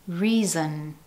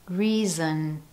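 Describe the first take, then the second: Both takes have the same delivery.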